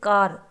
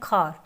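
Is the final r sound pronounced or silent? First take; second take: pronounced; silent. First: The final r sound is clearly pronounced. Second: The final r sound is left silent.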